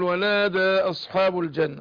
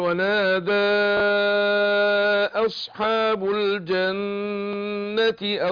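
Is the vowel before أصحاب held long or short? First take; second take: short; long. First: The vowel before the next word is kept short. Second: The vowel before the next word is drawn out long. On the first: "كده قصرت" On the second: "همد"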